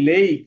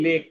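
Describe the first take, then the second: First: লেক said with a long clear ei vowel, ending on k; correct pronunciation. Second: লেক said the common wrong way with a short e; wrong pronunciation. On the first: Teacher modelling the correct লেক to pupils, clear long vowel. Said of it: "বলতে হবে". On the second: Teacher showing pupils the wrong লেক, short vowel. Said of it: "এটা ভুল বলি". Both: Shown as a demonstration.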